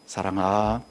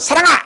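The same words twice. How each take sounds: First: The name is called in a soft, gentle voice. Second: The name is called in a loud, sharp voice. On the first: The child is in real trouble. "이러면 얼마나 무서워요" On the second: It is an ordinary scolding, nothing serious. "이럴 때가 평소랑 비슷해서 별 문제가 없는데"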